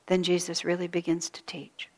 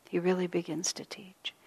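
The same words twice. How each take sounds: First: Said in the usual way. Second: He really begins to teach whispered softly, with a rise on really; whispered repeat. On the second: Shown as a demonstration. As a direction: breathe the repeat as a soft whisper. Repeats line, second time whispered.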